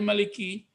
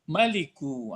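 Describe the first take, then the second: First: The word ends with an 'i' vowel. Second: The word ends with an 'u' vowel. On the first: The speaker calls it wrong. "nggak boleh maliki" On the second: The speaker calls it right. "Jadi kalau membaca kita Allahu Maliku"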